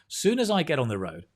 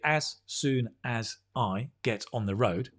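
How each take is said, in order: First: The opening 'as' is dropped entirely. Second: The opening 'as' is pronounced in full. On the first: The speaker calls it right. "we say soon as I" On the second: The speaker calls it wrong. "we don't say"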